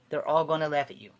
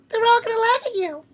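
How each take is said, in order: First: It is said in his normal voice. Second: It is said in a Carrie's mom voice.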